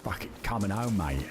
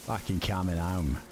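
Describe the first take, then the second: First: Hammed-up London accent, home rising, mate dropping; second go at a London accent; mock London accent. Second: Mock London accent slipping into Australian; an Aussie-sounding stab at a London accent; accidental Australian accent. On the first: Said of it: "It's trying to be London". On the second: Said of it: "That sounds Australian".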